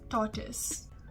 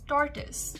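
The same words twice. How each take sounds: First: It is said in a British accent. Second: It is said in an American accent.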